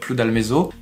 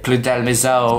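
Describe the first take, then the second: First: The name is said with a French accent. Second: The name is said with a Brazilian accent.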